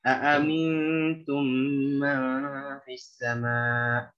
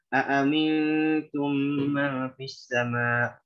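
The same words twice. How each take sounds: First: It is recited at a medium speed. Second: It is recited quickly. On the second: "Kalau baca dengan hadr"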